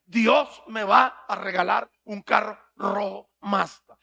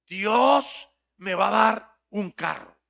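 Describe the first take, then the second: First: Slow, dragged chanted line; chanted, repeat it like a gullible crowd; mock congregation chant. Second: Chanted, slow, dragged-out repeating; chanted, parrot it slowly like the crowd; mock congregation chant. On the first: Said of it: "repita, repita". (chanted, coro lento y burlón) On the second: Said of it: "Repita, repita". (chanted, coro lento y burlón de la congregación)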